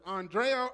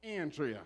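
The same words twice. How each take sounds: First: "Andrea" said ahn-DRAY-uh; alternate name pronunciation. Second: "Andrea" said AN-dree-uh; preferred name pronunciation. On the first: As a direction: say "Andrea" with broad first A, stress on DRAY. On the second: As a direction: say "Andrea" with flat A as in "and", stressed first. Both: Shown as a demonstration. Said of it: "she let me know it's".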